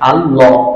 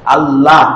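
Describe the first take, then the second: First: The word ends on a clipped 'l' sound. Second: The word ends with a drawn-out 'la' vowel. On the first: The speaker calls it right. "আল্লাহ ল হয়" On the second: The speaker calls it wrong. "এই লা বলে"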